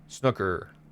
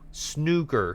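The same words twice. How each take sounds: First: The first vowel is unlike the vowel in stew. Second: The first vowel sounds like the vowel in stew. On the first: "I've always pronounced it snooker" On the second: "like almost like stew"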